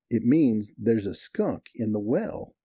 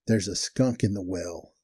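First: Very slow, spelled-out restatement; deliberate explanation. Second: Slow, measured retold complaint; deadpan statement. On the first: Retold or imitated. Cotton explains to the puzzled manager, slow and deliberate. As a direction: say it slowly, as if to someone slow to catch on. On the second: Cotton tells the manager what is wrong, slow and deadpan. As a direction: state it slowly, word by word.

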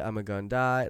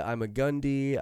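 First: GUNDAI said "GUN-die"; heard variant. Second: GUNDY said "GUN-dee"; heard variant. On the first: Host lists versions he has heard, "gun-die" variant. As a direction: say "I'm a Gundai" with a final "die". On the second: Host lists versions he has heard, "gun-dee" variant. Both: Shown as a demonstration. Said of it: "like, I've heard".

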